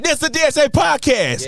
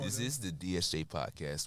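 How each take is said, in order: First: It is said with more energy and enthusiasm. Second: It is said flatly, without energy. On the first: The speaker calls it right. "Make it more enthusiastic" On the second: The speaker calls it wrong. "That just sounds boring"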